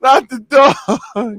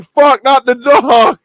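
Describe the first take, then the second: First: Very slow, high, loud wail; anguished cry. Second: High, loud, slow wail; anguished cry. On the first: Repeating the dog movie line, wailing slowly in mock grief. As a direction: drag out the plea in mock grief. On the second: Retelling the dog movie scene, wailing in mock despair. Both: Retold or imitated. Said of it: "I'm like".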